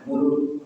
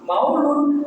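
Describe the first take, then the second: First: The first syllable has a plain 'u' vowel. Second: The first syllable has the 'au' diphthong. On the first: This is the Javanese or Betawi form. "Dan sama Jawa mulutan ya. ... Karena D itu nggak bisa ya" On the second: This is the Arabic form. "ala sabilil lugatil arabi"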